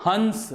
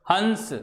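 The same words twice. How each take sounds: First: हंस said with the vowel through the nose; nasal hans demo. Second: हंस with the vowel through both nose and mouth; nasal hans demo. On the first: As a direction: say हंस letting the sound come out the nose. (हंस नाक से बोलकर दिखाना) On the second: (हंस नाक और मुख दोनों से) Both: Shown as a demonstration. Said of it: "आप बोलिए".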